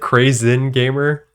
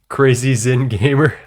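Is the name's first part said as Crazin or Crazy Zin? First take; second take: Crazin; Crazy Zin. First: The first part is said as one word. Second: The first part is said as two words. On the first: The speaker calls it right. "That would probably more be more appropriate" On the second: The speaker calls it wrong. "Not Crazy Zin Gamer?"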